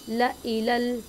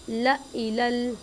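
No difference in how they are said.

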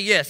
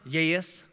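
First: It is a short, plain English yes. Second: It is a drawn-out country yes, almost three syllables.

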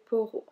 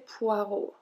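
First: The first syllable is said as 'po'. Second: The first syllable is said as 'pwa'. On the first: The speaker calls it right. "we say poro" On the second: The speaker calls it wrong. "we do not say poireau"

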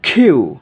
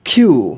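Both takes have the same delivery.

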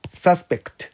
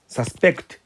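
First: The stress is on the first syllable. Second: The stress is on the second syllable. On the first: A person thought to be guilty. "名詞はアクセントが一般的に前で" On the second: To believe something may be true. "動詞はアクセントが後ろ"

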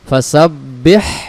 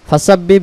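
First: The final h sound is clearly pronounced. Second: The final h sound is dropped. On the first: The speaker calls it right. "দেখেন এই হাকটাকে আদায় করতে হবে।" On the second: The speaker calls it wrong. "তাহলে বলেন তো এই অক্ষরটা আদায় হয়েছে না।"

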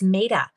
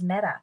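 First: The name rhymes with beta. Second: The name does not rhyme with beta. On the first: The speaker calls it right. "It's Meta, like beta" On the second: The speaker calls it wrong. "I thought her name was Meta, and it's not"

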